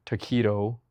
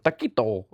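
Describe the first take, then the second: First: Said in the usual way. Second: "taquito" in an exaggerated Spanish accent; showy Spanish accent. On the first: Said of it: "If you say taquito instead of". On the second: Shown as a demonstration. Mocking performative pronunciation, "taquito" in overdone Spanish accent. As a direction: say "taquito" with mock Spanish flair. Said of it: "instead of taquito".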